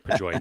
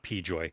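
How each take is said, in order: First: The first syllable is a short, reduced 'puh'. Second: The first syllable is the letter name 'pee'. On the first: The speaker calls it right. "I'm going to say Pajoy" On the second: The speaker calls it wrong. "not P Joy"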